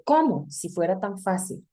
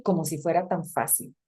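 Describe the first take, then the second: First: "¿Cómo?" asked as a separate question, then a drop; stressed "Cómo" set apart as a question; wrong question reading. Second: Said in the usual way. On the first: Shown as a demonstration. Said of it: "No estamos diciendo". ("¿Cómo?" como pregunta aparte, acentuado y separado) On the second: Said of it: "Es así".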